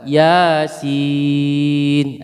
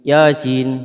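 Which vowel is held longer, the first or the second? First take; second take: second; first. First: The second vowel is drawn out long. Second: The first vowel is drawn out long. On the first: The speaker calls it right. "Nah, gitu. Sinnya yang panjang" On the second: The speaker calls it wrong. "jangan Yasin"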